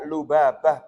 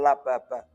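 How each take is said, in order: First: The first vowel after L is u. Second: The first vowel after L is a. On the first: The speaker calls it right. "dibaca lubabah" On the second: The speaker calls it wrong. "bukan lababah"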